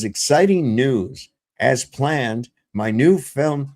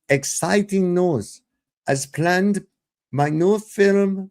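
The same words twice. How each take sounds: First: It is read in his own plain voice. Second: It is read in an imitation of her voice.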